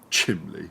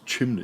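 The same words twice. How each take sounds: First: It is said with an L sound inside. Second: It is said with an N sound inside. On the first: "It's not chimney" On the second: "chimney with an N"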